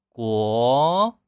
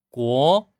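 First: The end of the syllable is dragged out. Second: The end of the syllable is cut short. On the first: The speaker calls it wrong. "不要去拖音，不要国。" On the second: The speaker calls it right. "这样收住"

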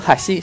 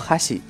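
First: The pitch goes low then high. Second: The pitch goes high then low. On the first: It means bridge. "读哈西是桥的意思" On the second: It means chopsticks. "而读哈西则是筷子的意思"

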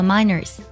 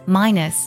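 First: The word has an added r-colored vowel sound. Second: The word has plain vowels with no r-sound. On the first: The speaker calls it wrong. "我们不能读作minors，不能加儿化音" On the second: The speaker calls it right. "minus 拼作minus minus"

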